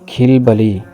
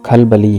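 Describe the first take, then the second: First: The first vowel is an 'i' sound. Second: The first vowel is an 'a' sound. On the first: The speaker calls it wrong. "लफ्ज़ बोलते हैं" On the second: The speaker calls it right. "दुरुस्त लफ्ज़"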